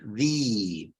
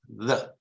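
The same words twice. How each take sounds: First: The vowel is a long E sound. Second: The vowel is a short, neutral schwa. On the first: "in the strong form, you have the long E" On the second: "That's a schwa"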